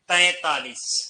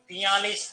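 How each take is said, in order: First: It begins with a nasalized 'tain' sound. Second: It begins with 'tiya' and has no nasal sound. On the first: The speaker calls it right. "ऊपर बिंदी तैतालीस" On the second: The speaker calls it wrong. "नहीं"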